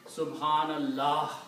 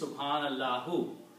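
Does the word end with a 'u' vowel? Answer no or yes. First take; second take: no; yes. First: The word ends without a final vowel. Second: The word ends with a final u vowel. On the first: "because it is stopping there, you are permitted to say Subhanallah" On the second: "actually it is Subhanallahu"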